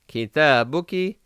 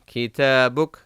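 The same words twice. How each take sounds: First: The word ends with a short final vowel. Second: The word ends on a bare consonant.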